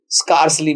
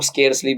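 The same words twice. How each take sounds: First: Scarcely with an open "ar", SKARS-lee; scarcely as "skarsli". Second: Scarcely with an "air" vowel, SKAIRS-lee; scarcely as "skairsli". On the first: Teacher shows students how many people say it, scarcely as "skarsli". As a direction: say scarcely with the vowel of "car". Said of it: "भी कहते हैं कई लोग". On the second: Teacher shows students how some others say it, scarcely as "skairsli". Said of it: "भी कहते हैं कुछ लोग". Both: Shown as a demonstration.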